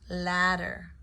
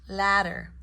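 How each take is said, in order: Both takes have the same delivery.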